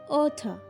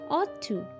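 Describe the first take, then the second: First: The words blend into one reduced form. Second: Both words are said fully and separately.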